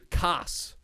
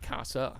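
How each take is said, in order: First: The final vowel is dropped, linking into the next word. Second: The final vowel is clearly kept and pronounced. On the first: The speaker calls it right. "They're Cas Antica" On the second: The speaker calls it wrong. "not Casa"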